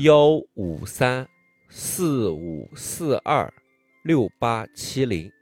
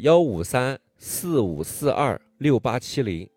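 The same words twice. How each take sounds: First: The number is said slowly. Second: The number is said at normal speed.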